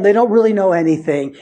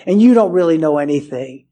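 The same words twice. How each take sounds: First: "really" leaned on, falling; weight the word "really"; stress on really. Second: "you" pointed and stressed at the listener; turning to the congregation, stress on "you". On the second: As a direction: hit "you" straight at them. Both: Shown as a demonstration.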